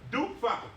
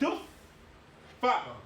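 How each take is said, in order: First: The f sound is single and short. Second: The f sound is doubled and held longer. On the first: The letter has no shadda. The speaker calls it wrong. "if the shadda wasn't there, we would read this word like this" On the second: The letter carries a shadda. The speaker calls it right. "Because we have the shadda, we have to have that extra sound"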